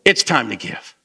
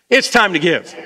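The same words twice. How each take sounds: First: Said in the usual way. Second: Rousing, convinced declaration; with conviction. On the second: Shown as a demonstration. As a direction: say it like you really mean it. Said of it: "Say it again with some conviction this time".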